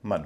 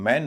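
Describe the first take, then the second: First: मन with a short schwa; reduced "mun" vowel. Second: मैन with an open, full vowel; full "man" vowel. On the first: Teacher contrasting two endings, मन with reduced vowel. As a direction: shrink the vowel to मन. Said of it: "मन हो जाता है". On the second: Teacher contrasting two endings, मैन with full vowel. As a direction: sound मैन like the separate word man. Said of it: "मैन न होके". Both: Shown as a demonstration.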